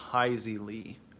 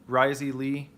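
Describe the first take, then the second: First: The name begins with an H sound. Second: The name begins with an R sound. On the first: "the R that's pronounced like an H" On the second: "Am I saying that right?"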